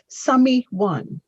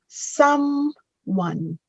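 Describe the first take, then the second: First: The word is said with three syllables. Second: The word is said with two syllables. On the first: The speaker calls it wrong. "not summy one" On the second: The speaker calls it right. "that first word is pronounced someone"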